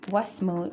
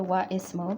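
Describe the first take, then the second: First: The words are joined without the 'i' vowel. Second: The 'i' vowel is pronounced between the words. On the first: The speaker calls it right. "So wasmu" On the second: The speaker calls it wrong. "we don't say wa ismu"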